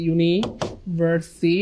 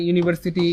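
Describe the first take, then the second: First: "ইউনিভার্সিটি" very slowly, split into its syllables. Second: Said in the usual way. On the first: Shown as a demonstration. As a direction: break "ইউনিভার্সিটি" into separate, drawn-out parts. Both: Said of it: "এই চারটা উচ্চারণ হইলে".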